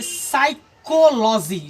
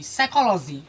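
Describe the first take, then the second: First: साइकोलॉजी slowly split as "sai-ko-lo-ji"; syllable-by-syllable pronunciation. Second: Said in the usual way. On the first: Shown as a demonstration. Teacher recalling how we read it, syllable-by-syllable pronunciation. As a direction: spell out साइकोलॉजी by sound, slow, ch as k. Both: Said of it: "पढ़े थे साइकोलॉजी".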